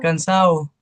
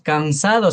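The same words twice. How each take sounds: First: The D sound in the last syllable is dropped. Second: The D sound in the last syllable is pronounced. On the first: "Le quitan la D, solo dicen" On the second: "se debería decir"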